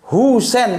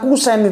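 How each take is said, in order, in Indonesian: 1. Nama itu diawali dengan bunyi H. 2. Nama itu diawali dengan bunyi K. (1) "Sebetulnya bukan Kusen itu" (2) "lidah Jawa nggak bisa"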